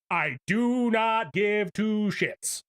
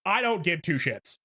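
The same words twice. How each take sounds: First: "I do not give two shits" said slowly, each word spaced and hit; drawn out, word by word for emphasis; slow deliberate repeat. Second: Said in the usual way. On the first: Real, not acted. Streamer repeating himself to chat, slow and emphatic.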